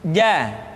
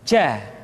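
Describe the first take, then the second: First: The consonant is voiced with no breath flowing. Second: Breath flows audibly through the consonant. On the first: The speaker calls it right. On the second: The speaker calls it wrong.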